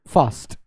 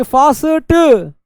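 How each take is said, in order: First: Said in the usual way. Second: फास्ट split into two drawn-out, loud beats; broken in two. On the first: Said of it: "एक बार में बोलोगे फास्ट". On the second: Shown as a demonstration. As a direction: wrongly break फास्ट apart, stretching 'faas-tuh'. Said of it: "तोड़ोगे नहीं उसे".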